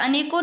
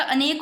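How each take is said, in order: First: "अनेकों" ending in an o vowel; rejected pronunciation. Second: "अनेक" ending on k; corrected pronunciation. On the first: Teacher showing students the error, "अनेकों" with final o. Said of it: "अनेकों नहीं होता". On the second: Teacher giving the correct word, "अनेक" ending on k. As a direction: stop "अनेक" on the k, no o. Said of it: "अनेक होता है". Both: Shown as a demonstration.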